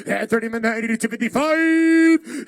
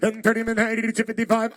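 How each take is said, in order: First: Loud auctioneer call. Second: Said in the usual way. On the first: Real, not acted. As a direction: bid called out loud and held. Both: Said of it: "repeated call".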